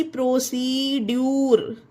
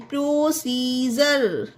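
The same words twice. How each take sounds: First: प्रोसीड्यूर ending in "dyoor"; प्रोसीड्यूर, ड्यूर in place of जर; wrong pronunciation. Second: प्रोसीजर slowly, ending in "jer"; correct pronunciation. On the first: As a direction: read प्रोसीड्यूर with a hard D. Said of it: "ना कि प्रोसीड्यूर". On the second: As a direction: model प्रोसीजर with D as a J sound. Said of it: "डी का जा पढ़ेंगे". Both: Shown as a demonstration.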